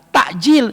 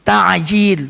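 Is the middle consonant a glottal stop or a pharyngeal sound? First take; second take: glottal stop; pharyngeal. First: The middle consonant is a glottal stop. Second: The middle consonant is a pharyngeal sound. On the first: It means delaying. The speaker calls it wrong. "kalau diganti hamzah" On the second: It means food that is hastened. The speaker calls it right. "pakai ain"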